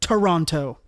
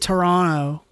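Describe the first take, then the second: First: The second T sound is clearly pronounced. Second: The second T sound is left out. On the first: This is how Americans say it. "I pronounce it the American way" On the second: This is how people from Canada say it. "they don't say the second T"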